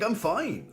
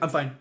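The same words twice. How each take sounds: First: It is said in an upbeat, positive tone. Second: It is said in a flat, downbeat tone. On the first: The speaker really is doing well. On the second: The speaker is not really doing well.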